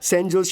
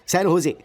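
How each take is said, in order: First: The J in Jose is pronounced. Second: The J in Jose is silent. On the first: The speaker calls it wrong. "Oh sorry sorry sorry sorry sorry" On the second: The speaker calls it right. "इसमें जे silent रहता है"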